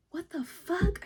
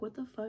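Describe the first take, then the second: First: High, incredulous mock yell; high-pitched outburst of disbelief; retold yelling. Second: Said in the usual way. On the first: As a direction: yell it in outrage, voice jumping up. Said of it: "so I started yelling". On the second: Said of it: "I started yelling at this fucking guy".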